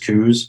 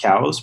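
First: The vowel sounds like the one in 'coos'. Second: The vowel sounds like the one in 'cows'. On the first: This is the form people have adopted over time. "it's been adopted as coos over the year" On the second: This is the original form of the name. "it's technically pronounced cows"

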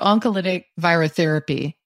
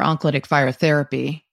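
First: The phrase is said slowly and deliberately. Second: The phrase is said at normal conversational speed.

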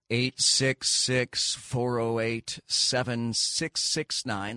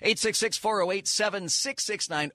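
First: The number is said at a slower pace. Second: The number is said at a quicker pace.

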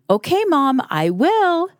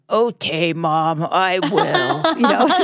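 First: It is said in a plain, ordinary voice. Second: It is said in a husky, grumpy voice. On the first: The child agrees willingly. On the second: The child agrees but does not want to.

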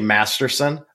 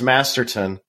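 First: The last syllable begins with an s sound. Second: The last syllable begins with a t sound. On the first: The speaker calls it wrong. "I say Masterson" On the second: The speaker calls it right. "I know it's Masterton"

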